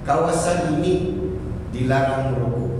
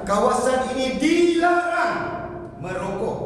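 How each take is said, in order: First: It is said plainly, without any strong emphasis. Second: It is said with strong emphasis on key words. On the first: Listeners will only half pay attention. The speaker calls it wrong. "hadirin akan mendengar secara sambil lewat" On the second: Listeners understand it is a firm order. The speaker calls it right. "hendaklah diberi penekanan"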